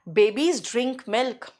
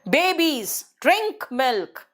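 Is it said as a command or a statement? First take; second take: statement; command. First: It is said as a plain, neutral statement. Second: It is said as a firm, commanding order. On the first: A general fact is being stated. "मैंने आपको fact बताया" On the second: The babies are being ordered to drink milk. "देखो मेरा tone change है, mood change है।"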